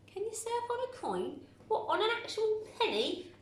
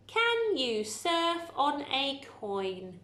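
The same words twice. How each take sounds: First: Much higher, disbelieving lift; incredulous question. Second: Slow reading. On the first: Real, not acted. Teacher to pupils, amused disbelief at the sentence. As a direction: ask it as if it's absurd. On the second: Shown as a demonstration. Teacher reading the sentence slowly to pupils. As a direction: read each word out slowly and evenly.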